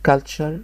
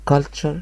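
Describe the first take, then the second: No difference in how they are said.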